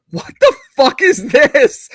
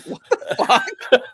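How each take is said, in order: First: High, slow, loud mock disbelief; imitating a stunned partner looking up from her phone; wife's shocked reaction. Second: Laughing through a slow, higher mock what the fuck; retelling her reaction, cracking up; repeated shocked reaction. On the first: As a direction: play her stunned what the fuck. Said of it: "and she was like". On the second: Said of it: "She was like".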